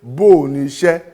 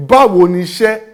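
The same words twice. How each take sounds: First: "Bó o" with the w dropped, one long vowel; loud "Bó o ni iṣẹ́", báwo cut short; shortened form. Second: "Báwo" said in full with two syllables; loud, high "Báwo ni iṣẹ́", nothing cut; full form. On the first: Teacher showing the cut form, "Bó o" contracted. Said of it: "a lè gé e kúrú". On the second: Teacher showing the uncut form, "Báwo" in full. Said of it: "dípò ká sọ wípé". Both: Shown as a demonstration.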